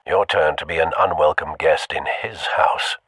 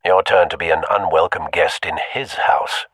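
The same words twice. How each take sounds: First: Breathy whispered take, no voice; hushed whisper to the listener. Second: Said in the usual way. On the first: Shown as a demonstration. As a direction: whisper it like a secret threat.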